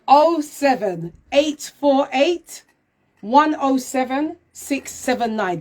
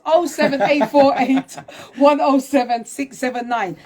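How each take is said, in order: First: The number is read out slowly. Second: The number is read out quickly. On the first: "I'm going to say it slowly" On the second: "I know I speak fast"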